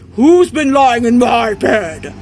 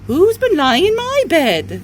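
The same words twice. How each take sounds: First: It is said in a great big voice. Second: It is said in a middle-sized voice. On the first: "said in a great big voice" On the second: "in a middle-sized voice said"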